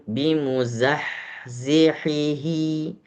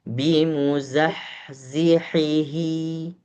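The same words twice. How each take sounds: No difference in how they are said.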